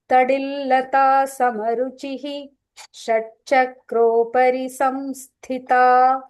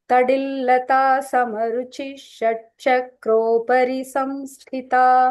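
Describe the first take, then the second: First: Samaruchi ends with an extra 'hi' before shatchakropari. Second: Samaruchi runs straight into shatchakropari without 'hi'. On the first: The name is said as a separate word. "if you're splitting and saying, it is actually" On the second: The name is joined to the next word. "So we join it and say"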